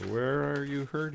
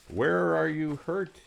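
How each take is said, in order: First: Higher doctor's question, stress on hurt; doctor asking again. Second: High, slow doctor's question; doctor asking. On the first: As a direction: lean on the word hurt. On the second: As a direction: ask it high and drawn out. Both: Acted. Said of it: "he asked me".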